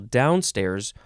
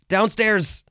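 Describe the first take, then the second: First: The stress is on the first syllable only. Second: The stress is on both syllables equally. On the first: "you can emphasize the first syllable" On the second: "you can emphasize both syllables"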